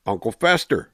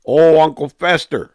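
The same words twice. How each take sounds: First: Said in the usual way. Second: Loud, high excited exclamation. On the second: Real, not acted. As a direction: burst out with delight. Repeats the nickname, excitedly.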